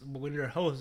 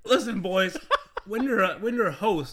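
First: Said in the usual way. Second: Booming showy host delivery; game show host voice. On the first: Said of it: "you guys wanna know 'cause you're not hosts". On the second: Acted. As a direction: play it up like a host on stage. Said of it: "you gotta play it up a little bit".

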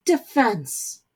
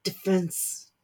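First: Fiery retort, a bit louder. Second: Sullen, muttered single word. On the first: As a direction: spit the word out with fire. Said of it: "but fire in his mother's tirade". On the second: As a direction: say it grudgingly, sulking. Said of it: "The word was sullen as he said it". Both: Acted.

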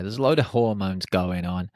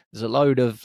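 First: Said in the usual way. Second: Load punched higher and louder; stress on load. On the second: Shown as a demonstration. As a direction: lean hard into the word load. Repeating the phrase for emphasis.

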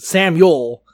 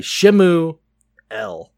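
First: "Samuel" as sam-yool, in one word; English name sounded out. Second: "Shemu El" split in two, with a long pause before El; Hebrew pronunciation. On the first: Co-host showing where El sits in the name, "Samuel" sounded out as one word. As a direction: sound out "Samuel" firmly, keeping the final el joined on. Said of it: "that last E L actually is". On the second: Co-host explaining the name's Hebrew roots, "Shemu El" broken into its parts. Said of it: "in the Hebrew it would be Shemuel". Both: Shown as a demonstration.

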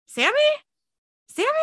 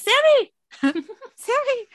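First: Said in the usual way. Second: High, loud shout through a door; trapped man yelling up through a door. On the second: Retold or imitated. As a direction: pound and holler for your brother. Banging on trap door, calling.

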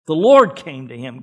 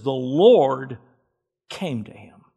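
First: "The Lord" said loud and ringing; preacher proclaiming "The Lord" at full force; stress on LORD. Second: Said in the usual way. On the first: Shown as a demonstration. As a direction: hit "Lord" hard with full voice. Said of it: "repeated with force". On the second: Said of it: "reading the verse".

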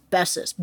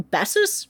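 First: Bessus. said flat and falling, decided; settled answer. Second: Bessus? said with a rising, doubtful lift; unsure question. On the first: Host settling on the name after guessing, firmly. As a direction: land Bessus. as the final answer. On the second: Host unsure how to pronounce the name, testing it. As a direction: try out Bessus? like a guess. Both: Shown as a demonstration. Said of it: "B E S S U S".

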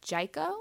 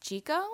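First: "Jiko" with SHY first syllable. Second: "Jiko" as CHEE-koh, rising unsure. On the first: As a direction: try "Jiko" rhyming with psycho. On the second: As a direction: try "Jiko" with CH and long ee. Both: Shown as a demonstration. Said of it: "I call it Jiko".

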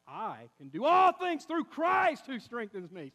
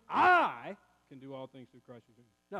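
First: "all things through Christ" loud and drawn out; stress on ALL THINGS THROUGH CHRIST. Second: "I" blasted loud and long, the rest dropped low; stress on I. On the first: Preacher showing the congregation the right emphasis, stress on "all" and "Christ". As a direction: skim over "I", hit "all" and "Christ" hard. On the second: Preacher showing the congregation the wrong emphasis, heavy stress on "I". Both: Shown as a demonstration. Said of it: "Where you put the emphasis on the syllable".

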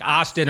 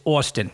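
First: "Austin" said AH-stin with an open ah; "Austin" with an ah sound, not Jersey; other pronunciation. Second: "Austin" said AW-stin with a rounded aw; "Austin" with the Jersey aw sound; Jersey pronunciation. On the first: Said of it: "they'd be saying it's something totally different". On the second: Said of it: "now that you're in Jersey". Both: Shown as a demonstration.

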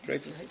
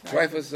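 First: Dreyfus said as DRAY-fus; mispronounced name. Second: Dreyfus said as DRY-fus; corrected name. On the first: Teacher asking class about Dreyfus, said DRAY-fus. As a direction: say Dreyfus with an "ay" in the first syllable. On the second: Teacher echoing a student's correction, Dreyfus as DRY-fus. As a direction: say Dreyfus with an "eye" in the first syllable. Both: Real, not acted.

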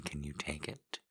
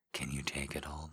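First: Said in the usual way. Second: Breathy close-mic whisper of the question. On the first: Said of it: "repeats question, then whispers it". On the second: Shown as a demonstration. Lover teasing a partner, whispering. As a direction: drop to a whisper for it. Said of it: "repeats question as a whisper".

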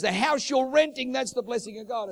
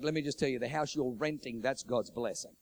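First: High, loud retold insistence; emphatic insistence. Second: Said in the usual way. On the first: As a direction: press the point as if correcting someone. Pastor repeats himself, insisting.

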